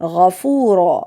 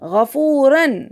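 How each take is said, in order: First: The word ends with a lengthened vowel, no n. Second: The word ends with a short vowel plus n. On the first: The reciter stops at this word. "जब हम वक्फ करेंगे तो हम इसको क्या पढ़ेंगे" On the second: The recitation continues without stopping. "तसलसल तिलावत में गफूरन पढ़ रहे हैं"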